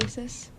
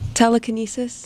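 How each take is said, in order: First: It is said quietly. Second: It is said loudly.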